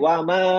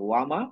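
First: The final vowel is stretched very long. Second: The final vowel is short and unstretched. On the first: "এমন না যে ওয়ামা এরকম এত লম্বা টান না" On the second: "যদি আলিফ না থাকতো আমি বলতাম"

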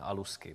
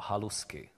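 First: The word begins directly with a vowel. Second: The word begins with an h sound. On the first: "ne alusky, protože ho oni nečtou"

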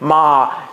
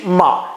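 First: It carries the lower yang level tone. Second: It carries the lower yang departing tone. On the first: "阳平" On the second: "阳去"

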